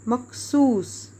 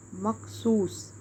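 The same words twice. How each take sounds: First: Slow dictation. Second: Said in the usual way. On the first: Shown as a demonstration. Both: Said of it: "یہ سواد دو بار آئے گا".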